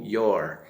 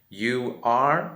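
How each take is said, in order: First: It is said as one short contracted syllable. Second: It is said as two full, separate words.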